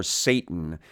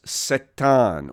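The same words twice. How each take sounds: First: Said in the usual way. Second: "Satan" as sah-TAHN, stress on the last syllable; Hebrew-style pronunciation. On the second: Shown as a demonstration. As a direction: say "Satan" with two ah vowels, ending stressed. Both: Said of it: "or Satan".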